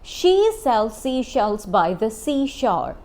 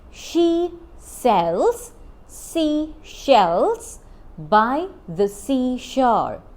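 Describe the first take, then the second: First: It is said at normal speed. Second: It is said slowly.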